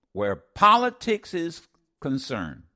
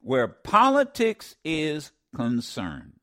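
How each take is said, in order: First: Said in the usual way. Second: "Where politics is concerned" said slowly, word by word; slowed emphasis. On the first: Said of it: "repeats phrase for emphasis". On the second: Shown as a demonstration. Radio host repeating the guest's words slowly to the audience. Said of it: "repeats phrase slowly".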